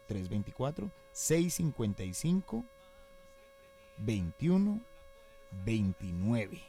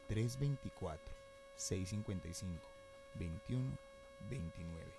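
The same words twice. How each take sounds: First: The number is read very slowly. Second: The number is read slowly.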